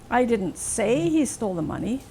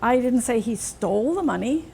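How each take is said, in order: First: The stress falls on the word say. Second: The stress falls on the word stole. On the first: It was only suggested, not said. "I only suggested it as a possibility" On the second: He may only have borrowed it. "Maybe he just borrowed it"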